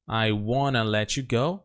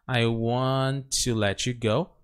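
First: Want to is reduced to a plain wanna. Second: Want to is said in full, both words.

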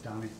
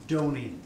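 First: The name does not rhyme with Tony. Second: The name rhymes with Tony. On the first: The speaker calls it wrong. "they always think it's Dony" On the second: The speaker calls it right. "as in Tony with a D"

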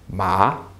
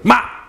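First: The pitch rises from lower to higher. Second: The syllable is yelled out short and sharp. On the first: "your voice is rising" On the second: "just yell out a word sharply"

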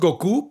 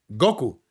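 First: The stress is on the last syllable. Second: The stress is on the first syllable. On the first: This is how it is said in Latin America, as heard in Japanese. "nosotros decimos Goku porque así lo oímos en el japonés" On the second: This is how it is said in Spain, following Spanish spelling rules. "la palabra llevaría el acento en la O"

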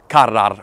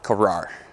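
First: It is said with a Hebrew-like pronunciation. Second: It is said with an American pronunciation. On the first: "It's probably karar or something" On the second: "I'm just going to go full American and say karar"

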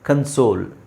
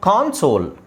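First: The first syllable sounds like 'kun'. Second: The first syllable sounds like 'kon'. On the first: "ಅಲ್ಲಿ ಕನ್" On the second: "ಇಲ್ಲಿ ಕಾನ್"

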